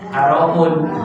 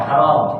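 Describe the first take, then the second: First: The word ends with a final -un sound. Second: The word ends on m without -un. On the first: "haramun dhamma, dhammatain" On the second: "karena dibaca wakaf"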